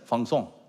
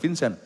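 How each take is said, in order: First: The name is said with a French pronunciation. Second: The name is said with a non-French pronunciation. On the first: The speaker calls it right. "Orang orang Prancis" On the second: The speaker calls it wrong. "bukan Vincent"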